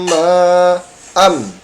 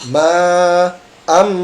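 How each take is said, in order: Both takes have the same delivery.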